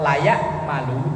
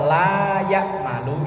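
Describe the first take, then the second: First: The vowel in 'la' is kept short. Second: The vowel in 'la' is held long. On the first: It means one ought to do it. "kalau lanya pendek itu seyogyanya" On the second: It means not doing it. "Kalau lanya panjang berarti tidak"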